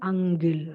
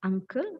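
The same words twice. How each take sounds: First: "angle" for uncle, k voiced into g; mispronounced uncle. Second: "uncle" with a clear k sound; correct pronunciation. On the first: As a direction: say "angle", a g sound replacing the k. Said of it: "the wrong pronunciation is". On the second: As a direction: say "uncle" with k, never g, after the nasal. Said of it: "The correct one is". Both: Shown as a demonstration.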